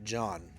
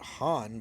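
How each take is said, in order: First: The name is said with an English pronunciation. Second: The name is said with a Spanish pronunciation. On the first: "I'm going to call it John" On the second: "If I was reading it in Spanish, that's how I would pronounce it"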